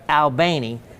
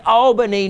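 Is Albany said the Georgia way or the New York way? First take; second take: Georgia; New York. First: It is said with the local Southern pronunciation. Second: It is said with the Northern, New York pronunciation. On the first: It names the town in Georgia. The speaker calls it right. "you got to make sure you say" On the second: It names the city in New York. The speaker calls it wrong. "we do not say it in the Yankee version of it"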